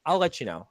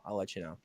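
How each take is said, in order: First: Said in the usual way. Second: A low mumbled repeat; quiet throwaway repeat to himself; muttered echo. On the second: Real, not acted. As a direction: say it again under your breath, trailing off. Mumbled echo of own line.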